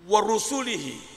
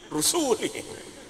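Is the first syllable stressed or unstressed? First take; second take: stressed; unstressed. First: The first syllable is pressed and stressed. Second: The first syllable is not stressed. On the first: The speaker calls it right. "mesti benar" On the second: The speaker calls it wrong. "Kalau enggak begitu ... Salah"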